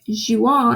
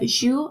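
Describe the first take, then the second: First: The final ending is pronounced as a nasal vowel. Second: The final ending is silent, ending on the vowel. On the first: The speaker calls it wrong. "if you pronounce it like jouant" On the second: The speaker calls it right. "We don't pronounce the E N T"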